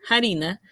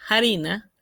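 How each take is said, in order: First: The word starts with an audible breathy h. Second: The same.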